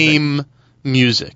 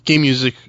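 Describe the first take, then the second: First: The words are said clearly and separately. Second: The words are slurred together. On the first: The speaker calls it right. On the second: The speaker calls it wrong. "I have a tendency to slur"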